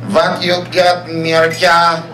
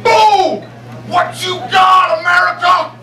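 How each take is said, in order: First: Put-on heavy Yugoslavian accent, plain pitch; thick Yugoslavian accent challenge. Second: Mock shouted taunt at a party; mock yell. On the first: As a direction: say it like a Yugoslavian guy taunting. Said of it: "Except it was more like". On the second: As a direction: bark a drunken challenge at him, slow. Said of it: "this dude just walks up to me and goes".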